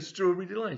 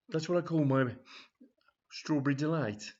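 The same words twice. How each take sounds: First: Much higher, louder "strawberry delight"; delighted customer. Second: A little higher and louder, leering; suggestive assistant. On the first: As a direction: relish the phrase with a squeal. Brenda repeats delightedly. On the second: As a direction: savour the double meaning. Assistant names his innuendo. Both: Acted.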